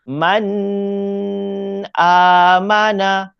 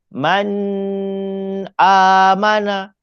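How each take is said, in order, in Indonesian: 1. n dibaca dengan dengung sengau yang panjang. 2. n dibaca dengan dengung sengau yang panjang.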